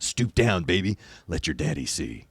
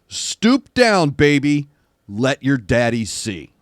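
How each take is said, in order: First: It is said in a Mister Burns voice. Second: It is said in his normal voice.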